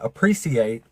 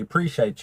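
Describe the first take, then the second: First: Every sound of the word is pronounced. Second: Some sounds of the word are left out. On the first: "instead of saying appreciate" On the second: "we take complete letters out of words"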